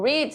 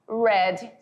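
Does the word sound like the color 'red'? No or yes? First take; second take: no; yes. First: The vowel does not sound like 'red'. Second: The vowel sounds like 'red'. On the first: It is the present form, meaning to read. "read significa ler" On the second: It is the past participle, meaning having read. "read significa lido"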